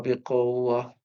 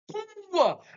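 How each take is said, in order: First: The word is said in a weak, flat voice. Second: The word is said in a strong, forceful voice. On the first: The word's meaning of strength is lost. The speaker calls it wrong. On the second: The word carries its meaning of strength. The speaker calls it right.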